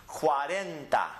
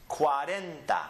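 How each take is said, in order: The two takes are said the same way.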